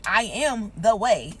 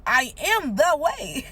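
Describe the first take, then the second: First: Slow, with "the" leaned on; "I am the way" with weight on "the"; stress on the. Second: Slow, proclaimed "I am the way" with "am" hit; stress on am. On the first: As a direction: draw out "the" in "I am the way". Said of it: "he's saying "the" to put an emphasis in". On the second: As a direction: ring out "am" in "I am the way". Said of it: "to put an emphasis in". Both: Shown as a demonstration.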